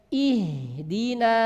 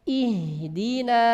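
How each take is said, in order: No difference in how they are said.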